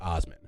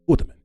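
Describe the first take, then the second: First: The middle consonant is an s sound. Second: The middle consonant is a th sound. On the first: "the guy's name is Osman" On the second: "when you pronounce it in Arabic, it sounds like Uthman"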